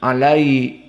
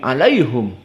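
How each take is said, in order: First: The vowel after the h is i. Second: The vowel after the h is u. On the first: "tidak bisa" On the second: "dibaca dalam keadaan dhammatul ha"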